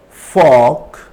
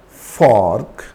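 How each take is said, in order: First: The R is silent and the vowel is long. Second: The R sound is pronounced after the vowel. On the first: The speaker calls it right. "So here R is not pronounced" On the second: The speaker calls it wrong. "it's not fork"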